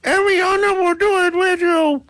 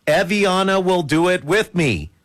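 First: Piercingly high ventriloquist dummy voice; squeaky puppeteer act; thrown puppet voice. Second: Said in the usual way. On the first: Acted. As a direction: speak for her in a tiny high puppet voice. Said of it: "trying to throw my voice like that puppeteer dude". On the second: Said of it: "trying to throw my voice".

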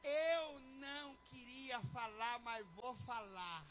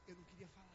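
First: Slow, stretched-out mock reluctance; drawn-out reluctance. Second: Very soft, low reluctant mumble. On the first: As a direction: drag each word out before giving in. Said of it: "É bem assim". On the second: Acted. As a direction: let it out quietly, as if unwilling. Reluctant spouse acted, then demonstrated.

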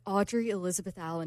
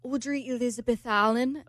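First: Said in the usual way. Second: Put-on amateur British accent with questioning lift. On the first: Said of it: "And I was like". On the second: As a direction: repeat the name like a British man. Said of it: "You have a terrible British accent".

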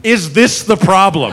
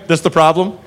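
First: "this" punched, then falling to the end; pointed question, emphatic "this", falling tune; stress on THIS. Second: "this the problem?" lightly, rising at the end; easy upward tune on "problem"; casual rising question. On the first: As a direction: lean on "this" as if pointing out the culprit. Cop repeats, singling her out. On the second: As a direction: ask "this the problem?" offhand, lifting on "problem". Cop casually asks about woman. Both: Retold or imitated.

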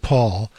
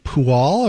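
First: Said in the usual way. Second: Pual drawn out as two syllables; tentative, stretched-out reading of Pual; misread name. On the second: Shown as a demonstration. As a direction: sound out Pual slowly, as if misspelled. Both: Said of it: "How do you pronounce your name".

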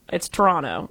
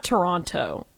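First: "Toronto" as tuh-RON-oh, T dropped; "Toronto" as Trawna. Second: "Toronto" with the middle T sounded; "Toronto" as tuh-RON-toe; pron with T. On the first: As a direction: say "Toronto" the local way with no middle T. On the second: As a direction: say "Toronto" with a clear T, the rejected way. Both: Retold or imitated. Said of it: "drop the T".

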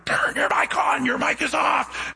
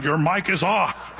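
First: Frantic shout. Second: Said in the usual way. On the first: Retold or imitated. Lady on the floor yelling at the pastor, shouting. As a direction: yell it up at the pastor, desperate. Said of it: "laying down on the ground going".

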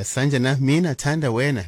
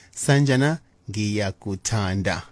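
First: "mina" stressed, "mina thanda wena" said word by word; wrong old phrasing. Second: "ngiyakuthanda" slowed and kept together as one word; correct one word. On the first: DJ mocking the outdated phrasing for listeners. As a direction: mark "mina thanda wena" as the clumsy version. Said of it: "not to say those words like". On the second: DJ teaching listeners the proper Zulu phrase. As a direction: model "ngiyakuthanda" cleanly. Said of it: "but we say". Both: Shown as a demonstration.

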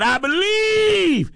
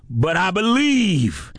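First: High, slow, ringing believe; soaring affirmation. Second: Said in the usual way. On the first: Acted. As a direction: lift it up in faith. Repeated affirmation, climbing.

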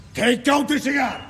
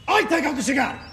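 First: Said in the usual way. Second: Shouted threat. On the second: Acted. Trucker loses patience with the driver and shouts. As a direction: shout it, fed up at last.

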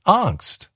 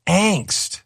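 First: "Angst" with an ah vowel, AHNKST; broad open a in "Angst"; old pronunciation. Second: "angst" with the a of "anger", higher; hard A. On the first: Retold or imitated. Answering Steve's spelling quiz, "Angst" as AHNKST. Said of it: "It's angst". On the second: Shown as a demonstration. Demonstrating Steve's correction, "angst" with a hard A. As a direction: punch a front-vowel ANKST for "angst". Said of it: "it's a hard A or eh".

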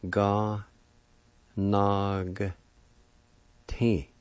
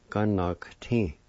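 First: Ga, nog, ti as separate syllables with long pauses. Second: Said in the usual way. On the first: Shown as a demonstration. Teacher showing learners how to pronounce physician, Ga, nog, ti syllable by syllable. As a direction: break it into three drawn-out beats: Ga, nog, ti. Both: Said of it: "like this".

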